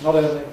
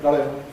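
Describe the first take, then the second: The two takes are said the same way.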